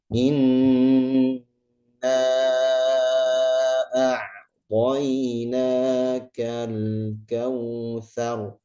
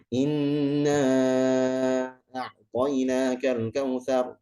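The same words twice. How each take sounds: First: It is recited very slowly and deliberately. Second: It is recited quickly. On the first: It suits study or devout, contemplative recitation. "Kalau kita baca tahqiq kan pelan, pelan sekali ya" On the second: It suits quick recitation in night prayers or review. "cepat ya, hadar"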